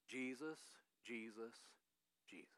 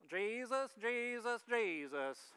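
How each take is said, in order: First: It is said in the speaker's plain voice. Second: It is said imitating the intern's accent.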